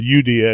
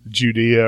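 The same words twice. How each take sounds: First: The word begins with a Y sound. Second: The word begins with a J sound. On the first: This is the original ancient pronunciation. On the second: This is the modern pronunciation.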